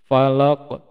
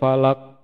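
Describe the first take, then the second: First: The final q ends with an echoing bounce. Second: The final q stops flat with no bounce. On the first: The speaker calls it right. "seharusnya bacanya itu" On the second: The speaker calls it wrong. "kemarin mah bacanya itu"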